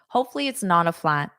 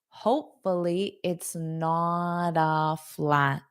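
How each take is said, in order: First: The sentence is spoken quickly and connected. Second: The sentence is spoken slowly and carefully. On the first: "let me say it fast" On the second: "the slow English I explained"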